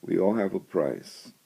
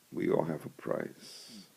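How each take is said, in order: First: Said in the usual way. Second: A soft whisper echoing the line. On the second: Shown as a demonstration. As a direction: let the repeat sink in, whispered. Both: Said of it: "repeated line, second whispered".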